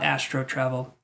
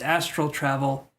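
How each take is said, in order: First: The first word ends with an 'oh' sound. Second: The first word ends with an 'al' sound. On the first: The speaker calls it wrong. "not astro travel" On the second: The speaker calls it right. "It's astral travel"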